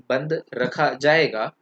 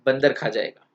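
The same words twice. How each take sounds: First: "बंद", "रखा", "जाएगा" as slow separate words; gap between बंद and रखा. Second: "बंदर" as one word, then "खा जाएगा"; बंदर joined, खा separate. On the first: Teacher shows the intended headline, "बंद" slowly parted from "रखा". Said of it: "ये बोलना था". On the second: Teacher reads the misprint, "बंदर" as one word before "खा जाएगा". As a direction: run "बंद" and "र" into "बंदर", then "खा". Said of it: "बंदर एक साथ कर दिया था". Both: Shown as a demonstration.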